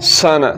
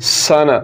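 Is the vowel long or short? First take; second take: short; short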